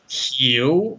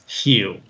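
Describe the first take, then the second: First: The tone dips low and rises back up. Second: The tone stays low without rising back. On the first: The word is said on its own. "if you say it in isolation" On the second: The word is said inside a sentence. "But if you say it in a sentence"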